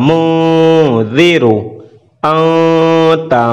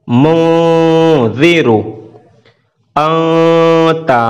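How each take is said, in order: The two takes are said the same way.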